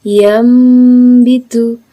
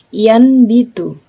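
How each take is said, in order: First: The nasal before b is an m sound. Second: The nasal before b is an n sound. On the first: The speaker calls it right. "merapatkan bibirnya atau merenggangkan sedikit" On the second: The speaker calls it wrong. "Cara membacanya bukan yan bitu"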